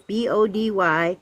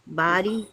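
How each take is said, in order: First: B O D Y spelled slowly letter by letter. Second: Said in the usual way. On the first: Shown as a demonstration.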